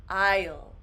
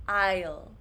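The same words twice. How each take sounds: Both takes have the same delivery.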